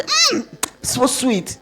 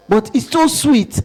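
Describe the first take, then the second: First: "Mm, so sweet" stretched out, very slow and savoring. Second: Said in the usual way. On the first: Retold or imitated. Lecturer acting out eating fruit grubs, slow and savoring. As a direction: linger over "Mm, so sweet" like tasting a treat. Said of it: "I say". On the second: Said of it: "I say, "Mm, so sweet".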